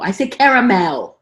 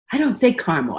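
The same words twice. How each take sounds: First: Caramel said in full, kair-uh-mel. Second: Caramel said in two syllables, car-mo; caramel squeezed short to car-mo; car-mel caramel. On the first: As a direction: give caramel all three syllables, kair-uh-mel. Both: Shown as a demonstration.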